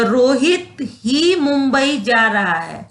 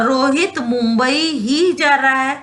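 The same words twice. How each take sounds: First: Rohit ही said with weight on Rohit; slow, emphasise Rohit before ही; stress on Rohit. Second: Mumbai ही given the weight; stress on Mumbai. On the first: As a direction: lean on "Rohit ही". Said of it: "ये ही जुड़ने से रोहित पे बल पड़ रहा". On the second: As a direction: lean on "Mumbai ही". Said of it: "तो मुंबई पे बल पड़ा". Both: Shown as a demonstration.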